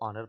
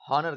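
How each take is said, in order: First: The word starts with a vowel sound. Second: The word starts with an h sound. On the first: "British में इसको ऑनर पढ़ेंगे" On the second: "American में इसको हॉनर कहा कहा जाएगा"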